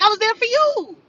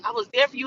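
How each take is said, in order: First: Higher, louder sarcastic parroting of his line; mocking echo. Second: Said in the usual way. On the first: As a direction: throw "there for you" back at him with scorn.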